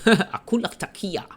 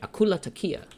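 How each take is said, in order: First: The name is said at a slower pace. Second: The name is said at a fast pace.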